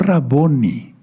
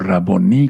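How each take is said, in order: First: The stress falls before the last syllable. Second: The stress falls on the last syllable. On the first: The speaker calls it wrong. "no Raboni" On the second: The speaker calls it right. "sino Raboní con acento en la I"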